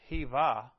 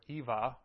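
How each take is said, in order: First: The word begins with an H sound. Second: The word begins with a vowel sound.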